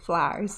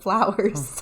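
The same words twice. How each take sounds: First: It is said in a Virginia accent. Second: It is said in a standard accent. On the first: "I grew up in Virginia. It's gonna say things like flowers" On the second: "instead of flowers"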